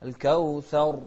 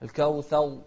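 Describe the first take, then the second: First: الكوثر with a light single-tap r; الكوثر with a proper tapped r; correct pronunciation. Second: الكوثر with over-rolled r, wrong; الكوثر said with the r trilled too much; الكوثر mispronounced with a rolled r; wrong pronunciation. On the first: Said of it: "فما يجوز لنا أن نقول الكوثر". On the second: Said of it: "لا، الكوثر". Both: Shown as a demonstration.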